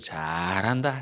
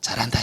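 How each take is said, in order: First: The first syllable is drawn out long. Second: The word is said very short and fast. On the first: The praise takes on an odd, ironic meaning. "잘을 길게 하면 내용이 좀 이상해지죠" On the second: The praise sounds childish. "너무 짧게 반복해서 말하면 굉장히 유치해집니다"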